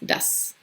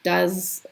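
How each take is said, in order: First: The word ends with a hissing s sound. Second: The word ends with a buzzing z sound. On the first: The speaker calls it right. "this is a S sound" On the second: The speaker calls it wrong. "So it's not like does"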